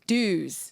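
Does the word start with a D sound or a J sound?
D sound. The word begins with a plain D sound. This is the American way of saying it. "Americans say uh dues"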